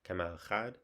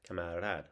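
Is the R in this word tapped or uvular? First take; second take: uvular; tapped. First: The R is a uvular fricative in the throat. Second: The R is a quick tongue tap. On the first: "in French we have the uh, uvular fricative" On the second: "we do the tap R, at least at one R"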